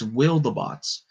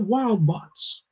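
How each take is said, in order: First: Said with an extra vowel, like wildebeest. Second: Said as two words, with no middle vowel. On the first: The speaker calls it right. "kind of like wildebeest" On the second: The speaker calls it wrong. "I'm saying it wrong"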